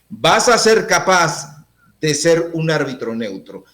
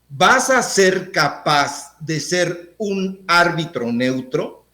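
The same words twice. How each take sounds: First: It is said as a statement. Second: It is said as a question.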